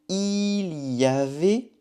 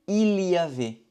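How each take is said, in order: First: The phrase is said at a normal pace. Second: The phrase is said quickly, run together.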